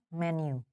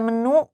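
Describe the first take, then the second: First: It is pronounced with English sounds. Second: It is pronounced with Indonesian sounds. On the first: "cuman bacanya menu" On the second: "Terus ada menu"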